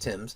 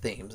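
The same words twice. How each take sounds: First: It is said the established, accepted way. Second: It is read literally, letter by letter. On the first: The speaker calls it right. "it's pronounced Thames" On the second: The speaker calls it wrong. "even though it looks like Thames"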